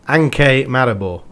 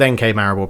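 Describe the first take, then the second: First: NK is run together like one word. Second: NK is spelled out as separate letters. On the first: This is how people in Slovenia say it. The speaker calls it right. "I think is how you pronounce it" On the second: This is how the speaker has always said it. The speaker calls it wrong. "they don't say it like that in uh, Slovenia"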